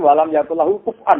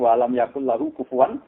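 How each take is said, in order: First: A glottal stop is kept in the last word. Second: The glottal stop is replaced by a w sound. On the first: It follows another reading tradition. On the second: It follows one reading tradition.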